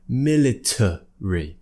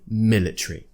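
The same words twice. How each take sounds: First: An extra weak vowel is heard before the ending. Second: No extra weak vowel is heard before the ending. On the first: "If we were to pronounce that little schwa that's floating around there" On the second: "So I would say military"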